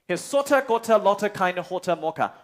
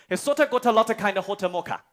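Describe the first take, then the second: First: It is said slowly. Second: It is said quickly.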